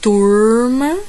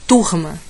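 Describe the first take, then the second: First: The r is held with a curled tongue. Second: The r is a dragged, breathy sound. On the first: "Interior paulista. ... A língua faz assim, fica um pouquinho" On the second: "Nordeste. ... Dá uma arrastada e vai embora"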